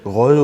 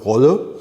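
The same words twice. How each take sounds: First: The name is said with a French pronunciation. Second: The name is said with a German pronunciation. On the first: "would be the correct one" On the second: "which is German pronunciation"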